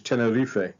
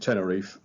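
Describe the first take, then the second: First: The name is pronounced the Spanish local way. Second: The name is pronounced the English way. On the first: This is how people on the island say it. "the locals pronounce this Tenerife" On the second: This is how English speakers usually say it. "we're also used to calling it Tenerife"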